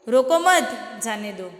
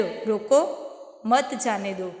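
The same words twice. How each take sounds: First: रोको मत run together, pause, then जाने दो falling; pause after मत. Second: रोको alone with rising end, pause, then मत जाने दो; pause after रोको. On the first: Teacher showing children the opposite meaning, pause after मत. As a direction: join मत to रोको, break before जाने दो. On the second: Teacher showing children how a pause changes meaning, pause after रोको. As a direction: break right after रोको, keep मत जाने दो together, lower. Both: Shown as a demonstration. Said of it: "बीच या अंत में थोड़ा रुकना".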